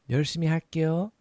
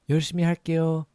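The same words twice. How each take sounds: The two takes are said the same way.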